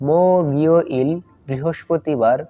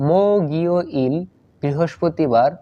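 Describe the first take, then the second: No difference in how they are said.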